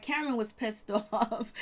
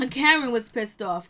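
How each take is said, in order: First: Amused, slower delivery with a laugh breaking in; giggling over the drama; laughing through it. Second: Louder, firm restatement; emphatic repeat. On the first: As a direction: chuckle as you say it. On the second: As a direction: hammer it home the second time. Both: Real, not acted.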